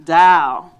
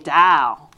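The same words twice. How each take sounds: First: The final L sound is dropped, like dow. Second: The same.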